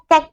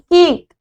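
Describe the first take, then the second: First: The vowel is a short a sound. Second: The vowel is a long a sound. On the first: The speaker calls it wrong. "हम इसको कैक नहीं बोल सकते, जैसे हम एफेटी फैट को फैट बोल रहे थे" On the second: The speaker calls it right. "इसको हम बोलेंगे सी के केक"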